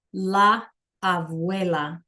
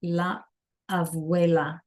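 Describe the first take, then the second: First: Slow, careful classroom pronunciation; slow demo. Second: La, pause, then abuela said on its own; split into parts. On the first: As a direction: draw la abuela out for the class. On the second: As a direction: break la abuela into two pieces. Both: Shown as a demonstration. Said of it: "You can try that one".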